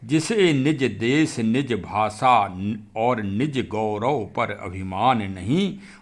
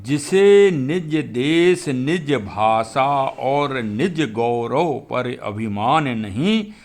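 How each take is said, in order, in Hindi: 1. यह सामान्य और धीमी आवाज़ में पढ़ी गई है। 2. यह ज़ोर से और बहुत स्पष्ट उच्चारण के साथ पढ़ी गई है।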